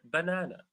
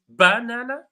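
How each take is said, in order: First: No syllable is stressed more than another. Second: The stress is on the first syllable. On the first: "it doesn't fall on any syllable" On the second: "the stress falls on the first syllable"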